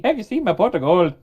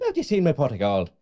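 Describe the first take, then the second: First: Put-on playful stage Irish accent; leprechaun-style Irish accent. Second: Put-on higher, louder stage Irish accent; hammed-up leprechaun Irish. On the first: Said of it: "Irish accent". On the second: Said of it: "That's not at all a good thing".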